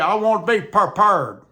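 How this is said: It is said with a regional country pronunciation. The speaker calls it wrong. "They say"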